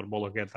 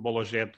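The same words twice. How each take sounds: First: Bologuet with a hard, throaty g; Bologuet, g made at the back of the mouth; hard g variant. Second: Bologuet with a soft French zh for the g; Bologuet, g softened to zh; soft g variant. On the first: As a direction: say Bologuet as "bolo-GHET". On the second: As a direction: say Bologuet as "bolo-ZHET". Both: Shown as a demonstration. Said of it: "how to pronounce it".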